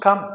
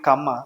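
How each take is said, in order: First: The word ends clipped with no extra vowel. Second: The word ends with a dragged extra vowel. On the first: The speaker calls it right. "అది cut చేయాలి" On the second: The speaker calls it wrong. "Indian English"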